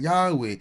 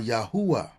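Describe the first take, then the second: First: The name ends with an 'eh' vowel. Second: The name ends with an open 'ah' vowel. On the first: The speaker calls it wrong. "To ignore the A in the end is a disservice" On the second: The speaker calls it right. "the He is pronounced as A"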